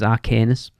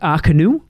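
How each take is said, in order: First: The word ends with a final s sound. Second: The word ends without a final s sound. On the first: The speaker calls it wrong. "it looks like it says Arcanus" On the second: The speaker calls it right. "Is apparently how you pronounce it"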